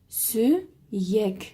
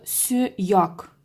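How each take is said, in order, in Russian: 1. Буква «я» читается мягко, как «ye». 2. Буква «я» читается твёрдо, как «ya». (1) "буква «я» приобретает мягкость" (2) "мы не будем читать это слово"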